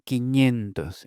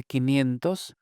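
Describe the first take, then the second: First: "quiñentos" with ñ for ni; slow "quiñentos", ni merged into ñ; N palatalized to ñ. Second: Said in the usual way. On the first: Shown as a demonstration. Linguist showing what they say for five hundred, palatal ñ. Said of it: "se convierte en ñ ante I". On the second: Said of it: "en lugar de".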